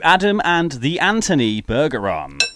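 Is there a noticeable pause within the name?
no. The name is said without a pause.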